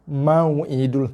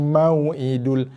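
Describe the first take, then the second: No difference in how they are said.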